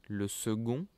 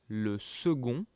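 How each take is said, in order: Both takes have the same delivery.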